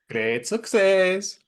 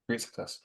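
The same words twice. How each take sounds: First: It is said loudly with lots of energy. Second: It is said plainly, without much energy.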